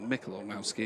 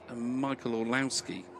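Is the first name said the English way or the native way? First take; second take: native; English. First: The first name has its native pronunciation. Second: The first name has an English pronunciation.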